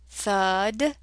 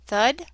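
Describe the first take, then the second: First: "thud" drawn out with a long vowel hold; stretched blend. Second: Said in the usual way. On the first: Shown as a demonstration. Teacher sounding out the word, stretched "thud". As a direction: slowly join the sounds of "thud".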